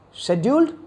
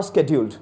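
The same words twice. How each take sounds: First: Scheduled with an opening SH sound, pitch rising as if asking; British pronunciation. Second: SCHEDULED begun with a hard "sk", SKED-yoold; scheduled with an opening SK sound; American pronunciation. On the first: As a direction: say scheduled the British way, "shed-yooled". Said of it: "British accent". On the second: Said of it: "an American accent". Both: Shown as a demonstration.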